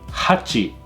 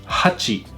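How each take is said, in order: Both takes have the same delivery.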